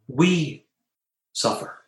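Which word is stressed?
We. The stress falls on the word we. It is each of us personally who suffers.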